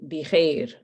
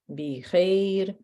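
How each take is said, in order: First: The vowels in the word are mostly dropped. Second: The vowels in the word are fully pronounced.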